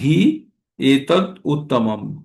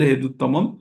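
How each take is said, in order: First: The words are said as separate words. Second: The words are run together into one.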